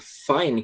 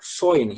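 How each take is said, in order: First: The vowel sounds like a plain 'ai'. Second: The vowel sounds close to 'oi'. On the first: This is the usual pronunciation. "que nem geralmente se pronuncia" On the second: This is typical of the Australian accent. "eles vão pronunciar fine"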